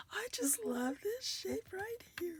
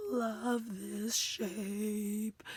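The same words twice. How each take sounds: First: High, soft, half-whispered adoration; soft gushing. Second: Very slow stretch on "love this shape"; drawn-out adoring. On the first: Crafter loving this shape right here, high and hushed. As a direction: coo it lightly, much softer. Adoring a die shape, repeated. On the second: Crafter loving this shape, slow and drawn out. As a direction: linger on each word, voice fading to breath. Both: Real, not acted.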